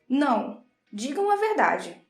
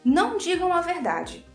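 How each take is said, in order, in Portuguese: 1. Há uma pausa depois da primeira palavra. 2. Não há pausa depois da primeira palavra.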